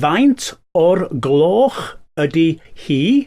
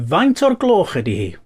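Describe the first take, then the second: First: The phrase is spoken slowly and deliberately. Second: The phrase is spoken at normal speed.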